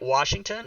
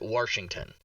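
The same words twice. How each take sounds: First: No R sound is added in the first syllable. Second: An R sound is added in the first syllable. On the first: The speaker calls it right. "so you do know how to say it right" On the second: The speaker calls it wrong. "pronounce words wrongly ... Washington with an R"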